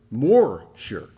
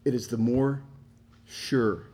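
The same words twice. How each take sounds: First: More said louder with a falling tune; stress on MORE. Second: Said in the usual way. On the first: Shown as a demonstration. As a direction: hit the word more, louder.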